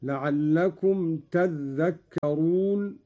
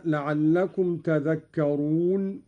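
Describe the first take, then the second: First: "تذكرون" with a held dhal, "tadh-dhakkarun"; slow recitation leaning on the geminated dh of "تذكرون"; doubled dhal. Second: Said in the usual way. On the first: Shown as a demonstration. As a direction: double the dh in "تذكرون", taking it slowly. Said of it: "قرأ قالون بتشديد الذال، هكذا". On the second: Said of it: "قرأ قالون بتشديد الذال".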